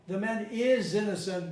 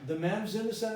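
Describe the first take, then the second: First: The word is is said in full. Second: The word is is reduced to a contraction. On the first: It is an emphatic statement. "would have been emphatic" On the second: It is a neutral statement. "the ta disappeared, the va disappeared"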